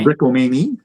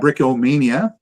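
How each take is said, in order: First: The name is pronounced the French way. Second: The name is pronounced the English way. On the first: The speaker calls it right. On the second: The speaker calls it wrong.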